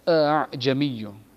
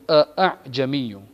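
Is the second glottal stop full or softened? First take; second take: softened; full. First: The second glottal stop is softened, smoothly eased. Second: The second glottal stop is a full, sudden stop. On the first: The speaker calls it right. "more like" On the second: The speaker calls it wrong. "as opposed to"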